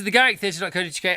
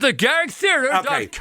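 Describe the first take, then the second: First: The phrase is said quickly. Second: The phrase is said slowly. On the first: "You said that very quickly" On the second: "a little slower"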